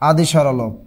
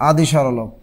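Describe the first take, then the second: The two takes are said the same way.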